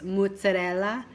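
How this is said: It is said with an Italian pronunciation. It is the authentic Italian way. The speaker calls it right. "you pronounce in Italian, it's mozzarella"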